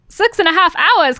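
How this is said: It is said in a put-on British accent. "a British accent for another"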